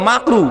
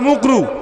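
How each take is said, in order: First: The first vowel is an open 'a' sound. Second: The first vowel is a rounded 'u' sound. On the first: The word is said properly. The speaker calls it right. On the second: The word is blurred so its meaning goes unnoticed. The speaker calls it wrong. "মাকরুকে মুকরু বলে চালিয়ে দিবে"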